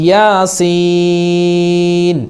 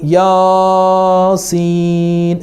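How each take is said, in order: First: The second syllable is drawn out long. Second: The first syllable is drawn out long. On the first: The speaker calls it right. "സീനിനാണ് അവിടെ നീട്ട് വരുന്നത്" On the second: The speaker calls it wrong. "അത് പൊട്ടത്തെറ്റാണ്"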